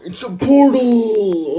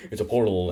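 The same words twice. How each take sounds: First: High, loud amazed shout; excited shout. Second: Said in the usual way. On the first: Retold or imitated. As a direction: yell it in amazement. Discovering a portal in story.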